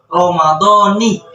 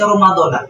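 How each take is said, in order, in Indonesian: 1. Kata ini diakhiri bunyi 'ni'. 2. Kata ini diakhiri bunyi 'na'. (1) "Yang benar adalah Ramadhani" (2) "kadang dibaca Ramadana"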